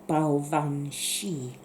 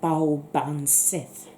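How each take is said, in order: First: It is said with a v and sh sound. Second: It is read as spelled, with a b sound. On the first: This is the proper Gaelic pronunciation. The speaker calls it right. "the way to pronounce it properly is" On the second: This is how it looks to someone who does not know Gaelic. The speaker calls it wrong. "if you don't know the Gaelic, it looks like"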